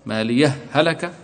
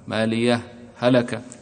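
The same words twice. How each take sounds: First: The two words run together with no break. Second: A brief break separates the two words. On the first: "الإدغام" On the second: "والسكت اللطيف، سكت بسيط بينهما"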